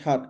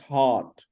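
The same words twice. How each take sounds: First: The vowel is short and clipped. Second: The vowel is long with an open mouth. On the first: The speaker calls it wrong. "No, not heart" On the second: The speaker calls it right. "It's long and it's robust. It's full mouth"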